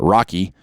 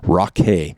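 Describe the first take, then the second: First: The name ends with an 'ee' sound. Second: The name ends with an 'ay' sound. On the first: The speaker calls it wrong. "I'm not going to pronounce it Rocky" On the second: The speaker calls it right. "I'm going to say Rockay because it's rock"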